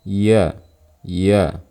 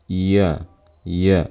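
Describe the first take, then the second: No difference in how they are said.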